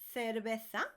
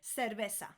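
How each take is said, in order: First: It is said in a Spain Spanish accent. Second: It is said in a non-Spain Spanish accent.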